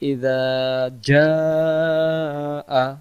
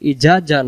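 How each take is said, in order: First: The first word has a soft 'dh' sound. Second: The first word has a hard 'j' sound. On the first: The speaker calls it right. "প্রথমটা জাল অক্ষর নরম করে ইযা" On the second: The speaker calls it wrong. "জাল অক্ষরের জায়গায় জিম অক্ষর উচ্চারণ হয়ে যাচ্ছে"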